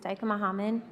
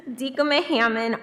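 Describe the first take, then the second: First: Dykema said as DIKE-uh-muh, Hammond as HAH-mun; "Dykema Hammond" tried as DIKE-uh-muh HAH-mun; unsure pronunciation. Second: Dykema said as DEE-kuh-muh, Hammond as HAM-mun; "Dykema Hammond" pronounced DEE-kuh-muh HAM-mun; corrected pronunciation. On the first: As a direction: say "Dykema" with a long i, "Hammond" with a broad ah, questioning. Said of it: "Am I saying that right?". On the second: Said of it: "How do I say it?". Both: Real, not acted.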